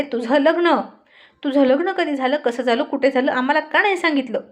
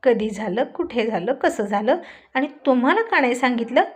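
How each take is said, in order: First: Mock group shout, a bit louder; hammed-up chorus of accusing friends; shouting together. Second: Confused echo of their questions; lightly baffled, asking back; mild bewilderment; puzzled. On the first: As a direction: friends yelling the accusation at once. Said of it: "सगळेच मित्र एकत्र ओरडून म्हणाले". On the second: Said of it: "काहीच न कळून रोहित म्हणाला". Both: A narrator's reading.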